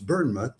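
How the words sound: The name has an English pronunciation. "in England it's Bournemouth"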